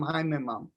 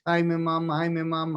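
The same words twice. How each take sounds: First: Haim, im, am sinking lower and softer into silence; Haim, im, am trailing off low and soft; fading mantra. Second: Steady chanted Haim, im, am; chanted, Haim, im, am intoned on one steady line; chanted mantra. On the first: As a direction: let the mantra fade away inward. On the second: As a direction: repeat the mantra in an even chant. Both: Shown as a demonstration. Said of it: "so you don't say it".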